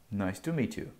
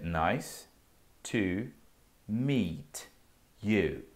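First: It is said quickly, with words run together. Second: It is said slowly, word by word. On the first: "É um pouco mais rápido" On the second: "A frase é"

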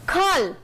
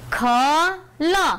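First: The two sounds are joined into one word. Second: The two sounds are said separately with a pause.

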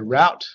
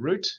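First: It is said with an American pronunciation. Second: It is said with an Australian pronunciation.

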